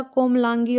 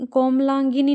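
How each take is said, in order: First: "कोमलांगी" ending on a long gee; correct form. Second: "कोमलांगिनी" with an extra ni ending; wrong form. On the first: Teacher correcting students, "कोमलांगी" ending in gee. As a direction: say "कोमलांगी" with no ni at the end. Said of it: "होता है". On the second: Teacher showing students the mistake, "कोमलांगिनी" with ni added. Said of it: "नहीं होता". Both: Shown as a demonstration.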